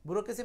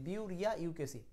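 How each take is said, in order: First: The word is said with its usual pronunciation. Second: The word is sounded out following its spelling.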